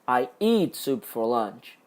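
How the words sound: The word "eat" carries the main stress. The soup is eaten, not used some other way. "Eu tomo sopa, eu não faço outra coisa com a sopa"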